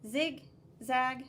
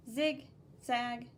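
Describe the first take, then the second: No difference in how they are said.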